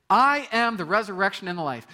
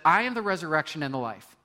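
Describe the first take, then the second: First: High, loud proclaiming; bold declaration. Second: Said in the usual way. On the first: Shown as a demonstration. Preacher proclaiming Jesus' words as a declaration. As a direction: proclaim it to the whole hall. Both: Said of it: "That's quite the declaration".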